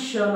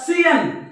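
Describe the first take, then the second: First: The ending sounds like 'shun' in one syllable. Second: The ending sounds like 'see-an' in two syllables. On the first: The speaker calls it right. "हा देखील शन आहे" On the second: The speaker calls it wrong. "बरेच जण याला याचं वाचन असं करू शकतात सियन किंवा सियान"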